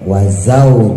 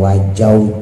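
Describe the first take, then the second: First: The middle consonant is a z sound. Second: The middle consonant is a j sound. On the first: The speaker calls it right. "Wazau juga" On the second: The speaker calls it wrong. "bukan wajau juga"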